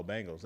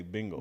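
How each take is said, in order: First: "Bengals" said as "Bang-gulls"; A in place of E. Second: "Bengals" with a "bing" first syllable; regional E sound. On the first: Retelling his own version, "Bengals" with a "bang" vowel. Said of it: "And I'll be like". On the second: Quoting himself on the co-host's region, "Bengals" as "Bing-gulls". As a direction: give "Bengals" the short vowel of "bin". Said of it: "that's the thing from your region". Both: Retold or imitated.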